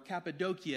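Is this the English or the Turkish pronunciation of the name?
Turkish. The name is said the local Turkish way.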